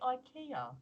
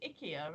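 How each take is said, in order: First: The name starts with a sound like 'eye'. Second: The name starts with a sound like 'icky'. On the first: This is the familiar local pronunciation. The speaker calls it right. "I want to say IKEA" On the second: This is the company's own advert pronunciation. The speaker calls it wrong. "on the adverts they pronounce it IKEA, and it doesn't feel right to me"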